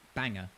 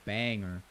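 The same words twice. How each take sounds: First: It is said in an Australian-British accent, emphatically. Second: It is said in an American accent. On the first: "the Australians, and, you know, the Brits to an extent, we go off" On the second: "you American taps, you go banger"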